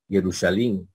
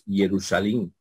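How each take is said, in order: First: It uses historical Greek vowel sounds. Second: It uses historical Greek vowel sounds.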